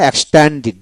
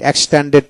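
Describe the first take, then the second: First: "এক্সটেন্ডেড" ending in a short -did; corrected ending. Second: "এক্সটেন্ডেড" with an e in the last syllable, -ded; rejected pronunciation. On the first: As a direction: say "এক্সটেন্ডেড" as eks-tan-did. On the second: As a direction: say "এক্সটেন্ডেড" as eks-ten-ded. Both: Shown as a demonstration. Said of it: "ডিতে ডিট উচ্চারিত হয়".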